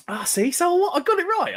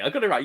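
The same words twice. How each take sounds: First: High, excited gloat; triumphant cry. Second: Said in the usual way. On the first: Real, not acted. Gloating to chat that he guessed right, high and excited. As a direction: crow that the guess was right. Guessed college year correctly.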